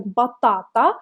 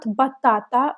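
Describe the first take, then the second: First: Batata with long clear a's; correct reading. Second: Batata with the wrong vowel; wrong reading. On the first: Teacher showing the correct batata. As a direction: read batata the right way. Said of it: "We read it like batata". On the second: Teacher showing the wrong batata. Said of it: "not batata". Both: Shown as a demonstration.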